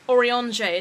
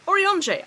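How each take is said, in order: First: "Orionje" as or-ee-ON-jay, louder; posh pronunciation. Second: "Orionje" said as or-ee-ON-jay, high and loud; posh pronunciation. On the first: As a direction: stretch "Orionje" into a posh orange. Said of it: "it just sounds like you're saying". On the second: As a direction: say "Orionje" like a posh orange, rising up top. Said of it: "I can say that". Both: Shown as a demonstration.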